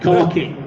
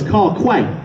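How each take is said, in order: First: The second word sounds like 'key'. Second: The second word sounds like 'kway'. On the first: The speaker calls it right. "But it's key" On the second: The speaker calls it wrong. "People used to call us Car Quay"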